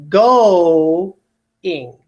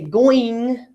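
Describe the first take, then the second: First: The two vowels are said as separate syllables. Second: The two vowels blend into one 'oi' sound. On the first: The speaker calls it right. "So I'm actually separating my vowels here" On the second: The speaker calls it wrong. "I don't say going"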